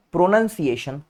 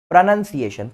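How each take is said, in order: Both takes have the same delivery.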